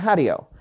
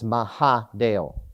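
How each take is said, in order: First: The name is said quickly and run together. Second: The name is said slowly and carefully. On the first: "If you say that fast enough, it comes out" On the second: "so it's Mahadeo"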